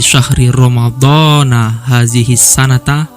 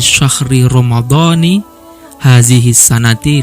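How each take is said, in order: First: Ramadan and sana end with an a-vowel. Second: Ramadan and sana end with an i-vowel. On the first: Ramadan stands alone and this year marks the time. "majrurnya dengan fathah, maka kata sananya dibaca fathah" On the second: Ramadan is joined to this year as a possessive construction. "dijadikan susunan idhofah"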